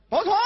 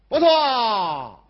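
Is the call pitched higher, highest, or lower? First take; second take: higher; lower. First: The call is pitched higher and fuller. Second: The call is low and not very full. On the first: "说完一遍马上就有进步" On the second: "但是您这个情绪啊再饱满，这个声音再高一点"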